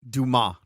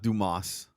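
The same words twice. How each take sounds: First: The name ends without an s sound. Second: The name ends with an s sound. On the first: The speaker calls it right. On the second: The speaker calls it wrong. "not Dumas. It's not dumbass, dude"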